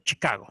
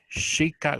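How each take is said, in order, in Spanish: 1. Empieza con el sonido fuerte de la ch española. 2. Empieza con un sonido más suave, parecido a sh. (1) "ahí nosotros en español" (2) "en inglés es un poquito más suave"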